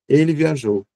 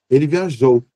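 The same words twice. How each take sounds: First: The pitch starts high and falls at the end. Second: The end carries a strong emphatic peak. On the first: It states a plain fact. "na afirmação, a curva desce" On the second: It expresses exclamation. "um pico também ali ao final"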